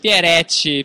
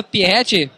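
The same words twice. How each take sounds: First: Pieretti said pie-RE-tti with a tapped r; corrected name. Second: Pieretti said as pieetti, dropping the r; mispronounced name. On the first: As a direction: Pieretti with a clear tapped r before the e. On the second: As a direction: Pieretti with the r after the ie left out. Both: Real, not acted. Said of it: "É Pieretti".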